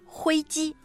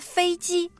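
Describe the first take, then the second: First: The first syllable begins with an h sound. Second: The first syllable begins with an f sound. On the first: "有的人可能会读成灰机" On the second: "比如说飞机"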